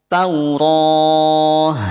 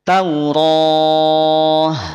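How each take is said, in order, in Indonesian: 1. Kata ini diakhiri dengan bunyi h. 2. Kata ini diakhiri dengan bunyi h.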